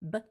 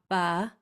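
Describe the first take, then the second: First: The b is short and clipped with no vowel. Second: The b is followed by an added uh vowel. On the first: The speaker calls it right. "It's just as fast as you can make it" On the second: The speaker calls it wrong. "So it's not ba, There's no us in bed"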